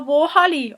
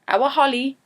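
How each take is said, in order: First: The first word sounds like 'war'. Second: The first word sounds like 'our'. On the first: "if you're being really Geordie, you'd say war" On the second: "in a lot of places in England, they say"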